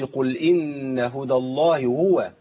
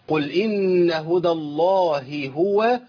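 First: The two h sounds merge into one. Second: Two separate h sounds are heard clearly. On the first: The speaker calls it wrong. "كده جبت هاء إيه هاء واحدة" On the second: The speaker calls it right. "عندي هائين لازم أبين الهائين"

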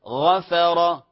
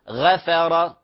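First: The first consonant is heavy and emphatic. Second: The first consonant is light and thin. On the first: The speaker calls it right. "هذه مفخمة" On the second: The speaker calls it wrong. "خطأ"

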